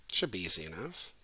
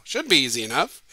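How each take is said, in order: First: Quietly muttered, low and soft; muttered aside. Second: Louder, bright announcing; puzzle-giver line. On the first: Teacher mutters the usual line before a puzzle, softly. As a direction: mutter it under your breath. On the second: Teacher performing the puzzle cliché, announcing it louder. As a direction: say it like the classic puzzle setup. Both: Shown as a demonstration. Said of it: "That's what you say before you give a puzzle".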